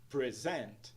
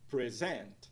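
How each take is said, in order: No difference in how they are said.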